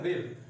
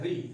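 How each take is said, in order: First: The syllable ends with an extra r sound. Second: The syllable ends on the vowel sound. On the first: The speaker calls it wrong. "रिर नहीं है" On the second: The speaker calls it right. "ये है री"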